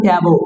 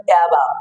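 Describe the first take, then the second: First: "অ্যাবো" with an o in the second syllable; wrong pronunciation. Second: "অ্যাবাব" with an open a in the second syllable; correct pronunciation. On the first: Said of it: "এটা ভুল উচ্চারণ". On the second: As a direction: say "অ্যাবাব" as "a-bav". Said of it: "আসলে সঠিক উচ্চারণ". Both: Shown as a demonstration.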